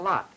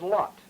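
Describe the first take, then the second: First: The vowel is low, back and unrounded. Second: The vowel is low, back and rounded. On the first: "not lot, as Mister Kepke and I did" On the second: "Miss Buchan says lot"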